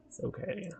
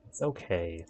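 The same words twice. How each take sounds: First: Much higher, much softer "okay" with a rise; tiny high-pitched okay; squeaky reassurance. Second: Lower, softer "okay"; low self-reassuring okay; low reassurance. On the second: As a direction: settle it with a low murmur. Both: Pretend. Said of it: "repeated reassurance".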